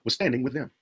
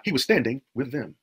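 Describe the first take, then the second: First: Said in the usual way. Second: Slow it right down and lean on standing with them; slow emphatic repeat. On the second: Shown as a demonstration. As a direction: repeat the verse slowly so it sinks in. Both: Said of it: "Verse five, he was standing with them".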